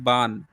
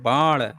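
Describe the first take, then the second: First: The n sound is dental, tongue behind teeth. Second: The n sound is retroflex, tongue curled back. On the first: This is how people in another region say it. "न बोलते हैं" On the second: This is how people in one region say it. "जैसे हरियाणा में जो है अड़ा कहते हैं"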